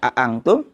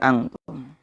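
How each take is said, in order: First: Both glottal stops are pronounced firmly. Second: The second glottal stop is softened. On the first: "tahqiq itu ditegesin"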